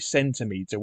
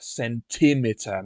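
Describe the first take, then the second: First: The stress is on the first syllable. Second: The stress is on the second syllable. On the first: "which is emphasis on the first syllable" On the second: "should have the emphasis on the second syllable"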